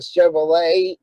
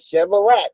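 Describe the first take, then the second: First: The final t sound is silent. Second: The final t sound is pronounced. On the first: "there's no such thing as a Chevrolet" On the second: "I spell things the way they sound to me"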